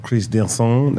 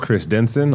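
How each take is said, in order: First: The name is said with a French-style accent. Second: The name is said with a plain American accent. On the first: "as my guest co-host would probably pronounce it" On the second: "My name is"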